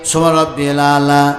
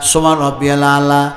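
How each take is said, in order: No difference in how they are said.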